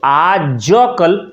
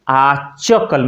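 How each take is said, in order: First: The middle consonant is a voiced j. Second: The middle consonant is a voiceless ch. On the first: "आज कल आचकल में परिवर्तित हो जाता है" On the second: "आचकल में परिवर्तित हो जाता है"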